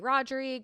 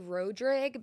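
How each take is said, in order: First: The surname is said the outsider-friendly way. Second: The surname is said the local Cajun way. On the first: This is how people outside Louisiana understand it. "we would have to pronounce it differently" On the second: This is how the family says it at home. "that's like the very country Cajun way to say it"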